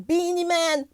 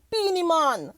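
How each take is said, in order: First: Said in the usual way. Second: Put-on Jamaican accent. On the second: Host savouring the dancehall star's name, Jamaican accent. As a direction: lean into a Jamaican "mon" vowel on Man. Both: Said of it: "I'm not gonna do the Jamaican accent".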